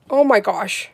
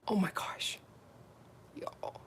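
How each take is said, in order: First: Excited exclaim. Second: Soft breathy whisper; whispered awe. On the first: Loud awe contrasted with whisper. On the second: Seeing the gel sparkle, whispering in awe. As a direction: whisper it, stunned. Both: Real, not acted.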